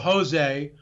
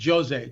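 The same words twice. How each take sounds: First: The name is said with a Spanish pronunciation. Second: The name is said with a Portuguese pronunciation. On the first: The speaker calls it wrong. "like Spanish people, Spanish speaking people would pronounce it" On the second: The speaker calls it right. "in Portuguese it's pronounced Jose"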